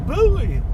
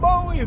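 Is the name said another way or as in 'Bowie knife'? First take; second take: Bowie knife; another way. First: It is said as in 'Bowie knife'. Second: It is not said as in 'Bowie knife'. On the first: The speaker calls it right. "Just like Bowie knife" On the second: The speaker calls it wrong. "Not Bowie"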